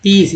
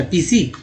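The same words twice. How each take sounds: First: Said in the usual way. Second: पीसी with an extra "ee" ending; misread final E. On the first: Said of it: "यहाँ पर ई बोल रहे हैं". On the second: Shown as a demonstration. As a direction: say पीसी as two syllables, "pee-see". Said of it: "ये तो पीसी नहीं हो जाता".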